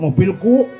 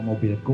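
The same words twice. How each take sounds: First: The word is said loudly and forcefully. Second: The word is said quietly and gently. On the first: The speaker is boasting about what they own. The speaker calls it wrong. "Aduh, jangan keras-keras" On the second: The speaker claims ownership humbly. The speaker calls it right. "jangan keras pelan-pelan"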